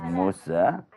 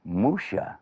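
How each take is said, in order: First: "Musa" with an s sound; crisp s in the middle of "Musa"; Arabic pronunciation. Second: "Musha" with a sh sound; Hebrew pronunciation. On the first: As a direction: say "Musa" with a plain s, as in salam. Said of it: "different ways to say it". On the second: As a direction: say "Musha" with sh, as in shalom. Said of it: "other people call him". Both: Shown as a demonstration.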